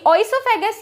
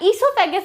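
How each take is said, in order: First: The word begins with an audible 'o' sound. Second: The word begins without any 'o' sound.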